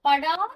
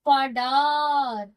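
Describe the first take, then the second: First: The final vowel has its normal length. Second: The final vowel is stretched extra long. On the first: "நார்மலா நீங்க என்ன சொல்லுவோம்?" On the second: "முழுமையா உச்சரிக்கும் பொழுது"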